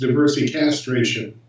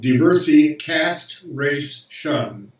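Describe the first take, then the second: First: It is said fast, run together. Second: It is said slowly, word by word.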